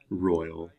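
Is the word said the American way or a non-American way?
American. It is said in a plain American way.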